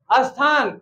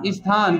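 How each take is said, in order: First: "स्थान" with added a, as-thaan; wrong pronunciation. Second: "स्थान" as is-thaan, falling lower; correct pronunciation. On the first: Teacher shows students faulty "स्थान", said as as-thaan. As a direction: put uh before "स्थान". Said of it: "स्थान कुछ होता है क्या". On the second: Teacher answers with corrected "स्थान", said is-thaan. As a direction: lead into "स्थान" with a light i. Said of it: "तो क्या होगा स्थान का". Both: Shown as a demonstration.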